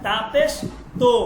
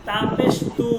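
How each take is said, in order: First: "তো" with an o vowel; "তা পেশ তো" spelt out, ending in o; Persian-style pesh. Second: "তু" with an oo vowel; "তা পেশ তু" spelt out, ending in oo; Arabic-style pesh. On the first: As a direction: say "তো" as to, not too. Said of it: "বলতে হবে". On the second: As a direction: say "তু" as too, the Arabic way. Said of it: "আরবিতে যদি কোনো বর্ণের উপর". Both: Shown as a demonstration.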